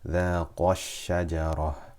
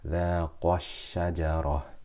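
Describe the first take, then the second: The two takes are said the same way.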